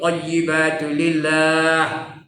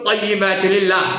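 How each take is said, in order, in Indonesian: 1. Vokal pada 'lillah' dipanjangkan. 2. Vokal pada 'lillah' pendek. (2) "Tak ada dua harakat pun"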